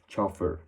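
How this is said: It is said with a harsher, English-like sound. "you can get more of a harsh sound like chauffeur"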